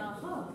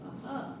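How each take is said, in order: First: It sounds lively and excited. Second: It sounds flat and disappointed. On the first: The answer has been found. "এক্সাইটমেন্টে আহা" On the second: The clue found does not work. "তখন তার আহাটা এরকম হবে"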